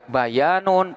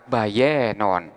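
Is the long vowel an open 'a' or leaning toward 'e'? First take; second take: open a; toward e. First: The long vowel is a plain open a. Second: The long vowel is tilted toward e.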